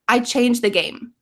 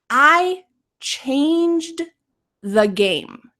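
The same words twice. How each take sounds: First: It is said quickly with the D sound dropped. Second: It is said slowly with a clear D sound. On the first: "if we say it quickly" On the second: "This is slowly. You can hear the D"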